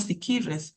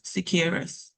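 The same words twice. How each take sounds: First: Said in the usual way. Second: "siquirres" squeezed to two syllables, sounding like "sikres"; Limón Creole pronunciation. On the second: Shown as a demonstration. Panelist shows the Creole form of the town name, "siquirres" as "sikres". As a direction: say "siquirres" the Creole way, dropping the middle vowel. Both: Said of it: "no decimos siquirres".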